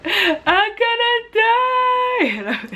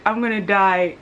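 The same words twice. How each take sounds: First: High, drawn-out whiny wail, breaking into laughter; mock wailing. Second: Said in the usual way. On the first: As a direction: wail it like a melodramatic child, laughing at yourself. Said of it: "And then I was like". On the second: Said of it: "So I was like".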